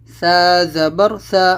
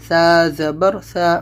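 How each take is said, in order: Both takes have the same delivery.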